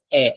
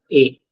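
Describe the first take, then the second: First: First A as open eh, as in air; open E sound. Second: Second A as closed ay, the sound to avoid; wrong closed sound. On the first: Teacher states the rule, open eh sound. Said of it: "it's pronounced as a and not a". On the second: Teacher rules out this sound, closed ay. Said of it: "and not a". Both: Shown as a demonstration.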